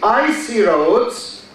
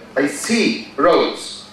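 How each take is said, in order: First: The stress is on the first syllable. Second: The stress is on the second syllable. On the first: The roads are covered with ice. "here the stress is on the first syllable, on the word icy" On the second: Someone sees roads. "here the stress is the second on the verb I see"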